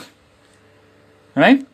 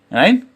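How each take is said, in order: First: Drawn-out catchphrase. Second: Said in the usual way. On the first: Pretend. Stretched repeat of catchphrase to camera.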